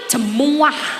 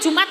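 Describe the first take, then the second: First: The word is said in an old Javanese form. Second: The word is said in its standard form. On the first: "Wong mbah-mbah iki lho nek muni Jumat iku jemuah" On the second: "gak iso muni Jumat"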